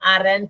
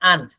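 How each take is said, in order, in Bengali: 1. মাঝখানে r এর উচ্চারণ হয়। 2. মোটেই কোনো r এর উচ্চারণ হয় না। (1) "আরেন্ট বলা দরকার নাই" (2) "আর শব্দের উচ্চারণই করে না, তো আপনি বলবেন আন্ট"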